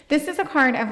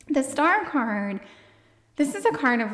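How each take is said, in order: First: Said in the usual way. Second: Breathless, winded delivery; out of breath. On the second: Real, not acted. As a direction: speak short of breath. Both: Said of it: "oh my gosh, I'm so out of breath".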